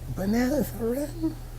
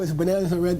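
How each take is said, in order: First: It is said in a light, sarcastic tone. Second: It is said in a hostile, combative tone. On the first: The claim is mocked gently to expose its absurdity. The speaker calls it right. "it's just like this sarcastic thing" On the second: The listener is attacked as a fool. The speaker calls it wrong. "It's never like, what are you, fool?"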